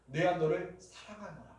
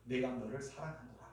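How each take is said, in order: First: Said in the usual way. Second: Hushed and soft, 내가 너를 사랑하노라 said close to the ear; 내가 너를 사랑하노라 murmured tenderly into the ear; soft whisper-like. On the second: Retold or imitated. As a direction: breathe 내가 너를 사랑하노라 softly like a secret. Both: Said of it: "귀에 속삭이잖아요".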